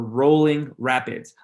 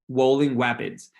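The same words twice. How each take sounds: First: The words begin with r sounds. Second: The words begin with w sounds. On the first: The speaker calls it right. "instead of saying ... Rolling Rapids" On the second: The speaker calls it wrong. "You'll get a W"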